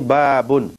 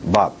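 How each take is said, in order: First: The word ends with an added -un sound. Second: The word ends on the consonant, no vowel. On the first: "Ada yang kata ini babun" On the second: "Gitu saja"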